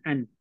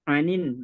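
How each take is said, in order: First: The word ends in a plain n sound. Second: The word ends with an added -in linking syllable. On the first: The speaker calls it wrong. "bukan an" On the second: The speaker calls it right. "anin, bukan an"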